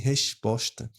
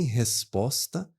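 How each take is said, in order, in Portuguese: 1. Os dois sons de "s" são chiados, como o som de "ch". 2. Os dois ssons de "s" são sibilados, como um s agudo. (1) "nem resposta" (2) "Eu não falo nem resposta"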